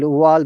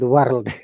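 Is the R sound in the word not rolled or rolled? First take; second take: not rolled; rolled. First: The R is not rolled. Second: The R is strongly rolled. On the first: "We said" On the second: "they said"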